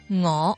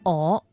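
First: The word begins with a nasal ng sound. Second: The word begins directly with the vowel. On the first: The speaker calls it right. "正确嘅读音应该系一个鼻音" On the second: The speaker calls it wrong. "好多人都会读成我"

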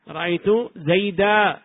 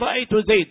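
First: The final word ends with a long 'a' vowel. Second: The final word ends without a long vowel. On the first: This is the pausal form of most Arabs. "جمهور العرب يقولون" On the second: "بعضهم يحذف الألف عند الوقف فيقول"

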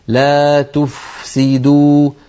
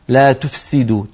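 First: The f is clear, breathy and given full length. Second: The f is weak and the s overpowers it. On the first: The speaker calls it right. "فلا بد من أن نبين الفاء ونعطيها حقها من الرخاوة والهمس والزمن" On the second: The speaker calls it wrong. "فتجد بأن الفاء تخرج ضعيفة والسين باعتبارها فيها صفير وقوية تطغى عليها"

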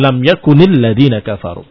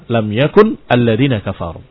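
First: Yakun ends with an i vowel linking onward. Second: Yakun ends without a vowel before alladzina. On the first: "Dia kasrah" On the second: "Lam yakun dengan sukun"

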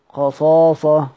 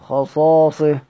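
No difference in how they are said.

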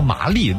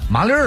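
First: It is said in plain standard Mandarin. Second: It is said in a Beijing accent. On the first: "比如说麻利" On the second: "得这么说啊"

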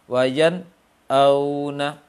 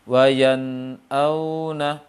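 First: The words are split by a short pause. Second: The words flow on with no pause. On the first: The speaker calls it wrong. "terputus dengan saktah atau dipisah dengan saktah" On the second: The speaker calls it right. "yang tepat seperti apa"

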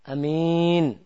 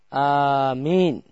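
First: The first vowel is short and the m single. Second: The first vowel is long and the m single. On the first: "hamzahnya pendek" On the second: "hamzahnya panjang, mimnya tidak bertasydid"

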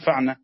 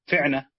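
First: The first consonant carries the vowel a. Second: The first consonant carries the vowel i. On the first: "هتحط فتحة على الفاء صح؟ بدل الكسر" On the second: "بدل ما تقول فعنة"

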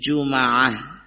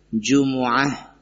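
First: The m is followed by an a vowel. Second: The m is followed by a u vowel. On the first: "bisa difathahkan mimnya" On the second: "Yang masyhur adalah yang pertama tadi"

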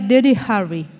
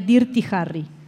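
First: It is said with an English-style pronunciation. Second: It is said with a Spanish-style pronunciation. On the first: The speaker calls it right. "bien dicho sería" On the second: The speaker calls it wrong. "pero mal sería"

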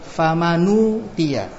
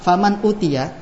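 First: The n runs straight into the u vowel. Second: A glottal stop separates faman and utia.

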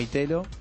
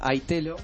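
First: The first vowel sounds like Spanish 'ee'. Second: The first vowel sounds like English 'eye'. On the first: This is how people locally came to say it. "en Argentina se ve que la gente lo adoptó como Itelo" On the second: This is the name as originally intended. "la idea original en realidad era Itelo, como iPhone"

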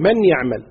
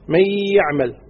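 First: The n is pronounced separately before y. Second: The n merges into the following y. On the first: The speaker calls it wrong. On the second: The speaker calls it right.

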